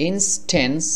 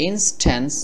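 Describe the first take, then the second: Both takes have the same delivery.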